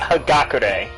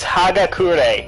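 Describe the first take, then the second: First: The name has an American-style pronunciation. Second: The name has a Japanese-style pronunciation. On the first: The speaker calls it wrong. "not Hagakure. Fucking Americans" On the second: The speaker calls it right. "It's Hagakure"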